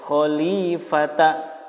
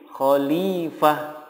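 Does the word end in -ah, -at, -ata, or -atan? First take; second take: -ata; -ah. First: The word ends in t followed by a. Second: The word ends in a soft h sound. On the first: The speaker calls it wrong. "tidak boleh dibaca khalifata" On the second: The speaker calls it right. "jika wakof menjadi khalifah"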